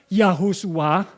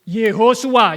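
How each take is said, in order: First: The name begins with the syllable 'yah'. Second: The name begins with the syllable 'ye'. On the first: The speaker calls it wrong. "bukan Yahosua" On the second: The speaker calls it right. "Yud He di depan itu bacanya selalu Ye"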